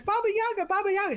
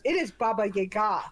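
First: Baba Yaga, Baba Yaga said high in a put-on Russian accent; playful mock Russian Baba Yaga. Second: It is Baba Yaga, said with a plain Baba Yaga; correcting it calmly, Baba Yaga; corrected pronunciation. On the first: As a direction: imitate the actor's Russian accent, pitched up. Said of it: "when he goes". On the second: Retold or imitated. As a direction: Baba Yaga said matter-of-fact. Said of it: "She goes".

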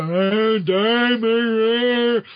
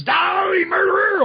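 First: Slow, stretched-out mock zombie groan. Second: High, drawn-out villain cry; Carrion. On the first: Carrion as a zombie accusing Peter, slurred zombie voice. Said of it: "if he sees he's a zombie". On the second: Retold or imitated. Carrion appearing to accuse Peter, mock villain cry. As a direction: shriek it like a comic-book villain. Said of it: "then Carrion comes and says".

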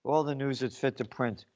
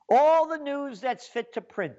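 First: Softer, lower, mocking the motto; sneering slogan. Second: The newspaper's slogan, proud and high; mock grand slogan. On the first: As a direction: throw their slogan back with contempt. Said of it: "we'll tell you". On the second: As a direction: announce it like a lofty motto. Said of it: "that's their quote".

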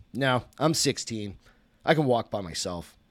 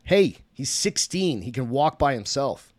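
First: Sarcastic. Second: Mocking. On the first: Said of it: "Toby said sarcastically". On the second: Drunk father mocks. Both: A narrator's reading.

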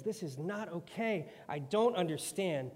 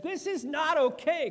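First: Said in the usual way. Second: Much higher and louder outburst; Job losing it. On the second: Acted. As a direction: let Job explode at God. Job finally loses it.

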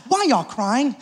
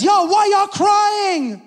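First: Said in the usual way. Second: High, slow, shouted question; Jesus shouting at the mourners, high and slow; loud challenge. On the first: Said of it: "that's how a man of faith responds". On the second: Acted. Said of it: "He says".

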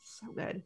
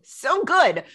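First: Hushed unvoiced gush; whisper. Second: Said in the usual way. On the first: Shown as a demonstration. Whispering praise to her co-host. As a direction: breathe it out in a whisper. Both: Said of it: "whispered then said aloud".

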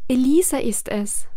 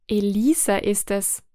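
First: Loud, proud reply from the roses; roses answering loudly. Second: Said in the usual way. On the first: A narrator's reading. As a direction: call it out boldly, stress on Elisa. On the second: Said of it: "erwiderte das Gesangsbuch".

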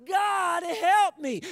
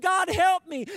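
First: High, drawn-out shout for help; louder screamed plea. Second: High, loud cry for help; screamed plea. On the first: Man dangling over the drop screams yet louder to God. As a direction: stretch out a desperate scream. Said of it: "He screamed yet louder". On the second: Man hanging from a cliff screams up to God. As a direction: call desperately up to the heavens. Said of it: "and screamed". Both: Acted.

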